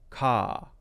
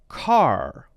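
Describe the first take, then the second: First: The final r is dropped, leaving an open vowel. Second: The final r is clearly pronounced. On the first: "it's an open sound. Almost like there isn't an R there" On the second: "He would pronounce that as car"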